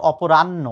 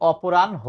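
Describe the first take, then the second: First: অপরাহ্ন mispronounced with a doubled n; aw-po-RAN-no for অপরাহ্ন, no h; wrong pronunciation. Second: অপরাহ্ন ending in n then ho; aw-po-RAN-ho for অপরাহ্ন; standard pronunciation. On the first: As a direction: say অপরাহ্ন slowly as aw-po-ran-no, dropping the h. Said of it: "not অপরাহ্ন". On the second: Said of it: "এটার উচ্চারণ হচ্ছে". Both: Shown as a demonstration.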